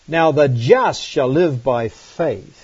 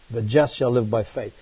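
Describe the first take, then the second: First: "Now the just shall live by faith" read slowly, word by word. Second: Said in the usual way. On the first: Shown as a demonstration. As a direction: dwell on each word of the verse.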